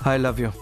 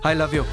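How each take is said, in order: First: It is said weakly and listlessly. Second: It is said warmly and passionately. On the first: It sounds like there is no feeling. "మరీ నీరసంగా చెప్తున్నారు sir" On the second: It sounds like real love. "Passionated గా చెప్పండి sir"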